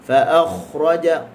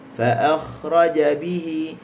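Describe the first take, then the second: First: "fa akhraja" articulated too far back; wrong demo: "fa akhraja" with over-deep sounds. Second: Slow recited "fa akhraja bihi", not too deep; correct, not too deep. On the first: ("fa akhraja" disebut terlalu dalam) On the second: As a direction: model "fa akhraja bihi" slowly, without over-deep sounds. ("fa akhraja bihi" perlahan, tidak terlalu dalam) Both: Shown as a demonstration. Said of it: "Jangan baca kita ambil dalam sangat".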